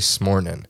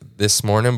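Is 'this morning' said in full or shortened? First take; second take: shortened; full. First: The words are squeezed together into one short word. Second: Both words are said fully and separately. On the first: "but they just say smornin" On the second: "They say that like this morning"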